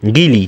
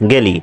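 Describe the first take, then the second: First: "গিলি" with i in both syllables, gi-li; আঞ্চলিক উচ্চারণ. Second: "গেলি" with e first, ge-li; প্রমিত উচ্চারণ. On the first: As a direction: regional form "গিলি", said gili. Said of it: "এরপর". (আঞ্চলিক টানে "গিলি") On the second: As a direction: standard form "গেলি", not gili. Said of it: "এবং এটার উচ্চারণও". (প্রমিত উচ্চারণে "গেলি") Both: Shown as a demonstration.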